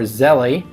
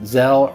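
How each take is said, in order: First: The name ends with a final 'ee' sound. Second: The name ends without a final 'ee' sound. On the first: "or Zelly" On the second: "Some people pronounce it Zelle"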